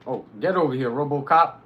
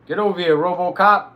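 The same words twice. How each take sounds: First: Loud taunting call at an enemy. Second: Higher, much louder repeat of the taunt; shouting louder. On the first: Streamer calling the enemy over, loud taunt. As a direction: yell him over to you. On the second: Streamer yelling the enemy over again, louder and higher. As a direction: bellow it at him this time. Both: Real, not acted.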